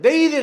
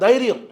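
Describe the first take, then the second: First: The word is said with a distorted pronunciation. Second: The word is said with its standard pronunciation. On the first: The speaker calls it wrong. "தைரியம் கிடையாதுடா" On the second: The speaker calls it right. "அது தைரியம்"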